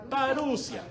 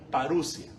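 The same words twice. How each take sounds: First: Parusia said high with the stress and a long final a; Parusia, leaning on the final -sia; stressed on the last syllable. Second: Parusia said lower, the stress off the last syllable; Greek stress, not on the last. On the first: Teacher to students, Parusia stressed at the end. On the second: Teacher shows students the Greek Parusia, no final accent. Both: Shown as a demonstration. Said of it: "No tiene acento en la última".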